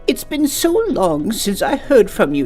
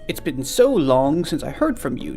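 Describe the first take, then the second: First: It is read in a put-on elderly woman's voice. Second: It is read in the speaker's normal voice. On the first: The speaker calls it right. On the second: The speaker calls it wrong.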